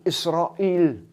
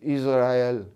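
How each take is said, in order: First: It is said the Arabic way. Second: It is said the Hebrew way. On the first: "En arabe, on dit Israël" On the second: "les Juifs disent Israël"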